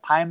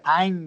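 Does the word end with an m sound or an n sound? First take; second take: m sound; n sound. First: The word ends with an m sound. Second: The word ends with an n sound. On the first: "Time değil" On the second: "o M'yi N harfi olarak söyler"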